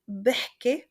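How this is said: It is said in a Lebanese accent. "in Lebanese"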